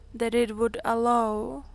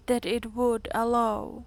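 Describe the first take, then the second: No difference in how they are said.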